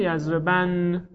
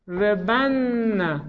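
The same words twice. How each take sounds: First: "یضربن" closed on a still n: yazreban; light emphatic nun. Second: "یضربن" with a long doubled n and final "a": yazrebanna; heavy emphatic nun. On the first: Teacher building the light emphatic form for students, "یضربن" as yazreban. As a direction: end "یضربن" on the n, no vowel after it. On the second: Teacher building the heavy emphatic form for students, "یضربن" as yazreban-na. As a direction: draw out "یضربن" slowly, holding the nn before an open -na. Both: Shown as a demonstration.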